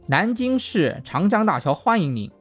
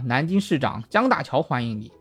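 First: The phrase breaks after shi, before changjiang. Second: The phrase breaks after shizhang, before jiang. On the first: The Yangtze River Bridge of the city welcomes you. "看到长江大桥上有一个标语叫" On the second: The city's mayor, named Jiang Daqiao, welcomes you. "他就念成了"

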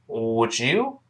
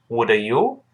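First: The d and y blend into one sound. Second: The d and y stay separate sounds. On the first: The speaker calls it right. "读快了之后变成would you" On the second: The speaker calls it wrong. "而不要读成would you"

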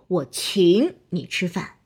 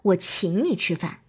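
First: One word is stressed in an exaggerated, jarring way. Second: The stressed word blends smoothly into the sentence. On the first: The speaker calls it wrong. "这就太刻意了" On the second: The speaker calls it right. "这样才会比较自然"

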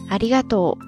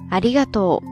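The two takes are said the same way.

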